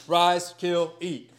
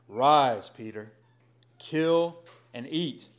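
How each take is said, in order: First: A loud, raised divine command; voice of God commanding. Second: Voice of God. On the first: God commanding Peter to eat, loud divine voice. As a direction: proclaim it from heaven. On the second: Voice of God to Peter. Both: Acted.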